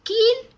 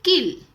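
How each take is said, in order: First: कील with a long stretched ई, much higher and louder; teacher stressing the long ई of कील; long vowel shown. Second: किल with a short clipped इ, still raised and loud; teacher contrasting short इ in किल; short vowel shown. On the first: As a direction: pull out the ई in कील, high and loud. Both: Shown as a demonstration. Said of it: "आपको पहचानना है कि कैसे".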